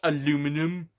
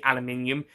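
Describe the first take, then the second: First: It is said the American way, with four syllables. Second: It is said the British way, with five syllables. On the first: The speaker calls it wrong. "not aluminum" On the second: The speaker calls it right. "aluminium is the correct way of saying"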